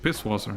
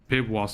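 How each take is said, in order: First: The word has an 's' sound before 'wasser'. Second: The word has a 'b' sound before 'wasser'. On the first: The speaker calls it right. "That's how you pronounce it" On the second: The speaker calls it wrong. "I thought Pibwasser. No, no, no"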